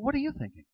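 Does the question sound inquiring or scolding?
inquiring. It sounds like a calm, genuine request for input. The speaker wants the other person's ideas. "you're asking a person to enjoin you and to help you and to give you some input"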